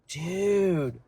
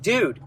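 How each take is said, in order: First: The word is drawn out long. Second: The word is said short and quick. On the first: The speaker is shocked or surprised. "You gotta make that dude long. It's a long sound" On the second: A casual greeting to a friend. "it's like quick. The word dude is quick"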